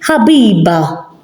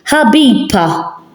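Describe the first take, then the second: First: The consonant before the last vowel is B. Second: The consonant before the last vowel is P. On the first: The speaker calls it right. "We say Habiba" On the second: The speaker calls it wrong. "I'll say it with a P"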